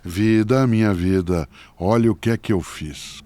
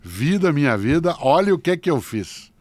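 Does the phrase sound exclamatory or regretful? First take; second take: regretful; exclamatory. First: It is said in a regretful, rueful tone. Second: It is said in an exclamatory, emphatic tone. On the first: The speaker regrets what was done. "como arrependimento" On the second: The speaker looks back on the path with appreciation. "colocar um ponto de exclamação"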